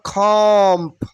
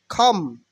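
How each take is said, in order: First: A b sound is heard at the end. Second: No b sound is heard at the end. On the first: The speaker calls it wrong. "not comp" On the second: The speaker calls it right. "B will be silent here"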